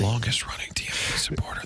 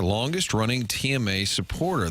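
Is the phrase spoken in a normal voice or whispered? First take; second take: whispered; normal. First: It is spoken in a whisper. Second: It is spoken in a normal full voice.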